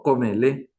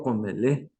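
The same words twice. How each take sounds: First: "comele" with the consonant that is not meant; rejected pronunciation. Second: "comele" with the consonant that is meant; intended pronunciation. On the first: Teacher shows what she does not say, contrasted "comele". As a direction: show the wrong first sound in "comele". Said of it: "Yo no digo comele". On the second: Teacher shows what she does say, carefully modelled "comele". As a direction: model the correct first sound in "comele". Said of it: "digo comele". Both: Shown as a demonstration.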